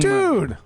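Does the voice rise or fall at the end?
fall. It falls sharply like an exclamation.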